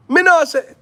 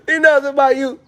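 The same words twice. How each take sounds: First: "Me know say" in high, loud Jamaican patois; Jamaican accent. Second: "Me know say, my youth" in high, loud Jamaican patois; Jamaican accent. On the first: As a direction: toss off "Me know say" like a Jamaican youth. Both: Pretend. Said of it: "when I go to Jamaica".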